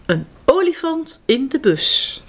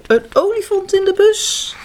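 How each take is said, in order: First: Said in the usual way. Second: Olifant in de bus said higher with delight; playful wonder. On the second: Shown as a demonstration. Teller repeats the title to the children, wonder-struck. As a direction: make the kids picture it. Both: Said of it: "Zie je het al voor je?".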